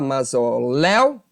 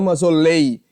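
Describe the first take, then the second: First: The stressed diphthong has an open vowel. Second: The stressed diphthong has a closed vowel. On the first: The speaker calls it right. "eu vou falar mausoléu" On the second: The speaker calls it wrong. "e não mausolei"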